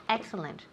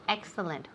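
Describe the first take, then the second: The two takes are said the same way.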